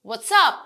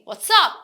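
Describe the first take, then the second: No difference in how they are said.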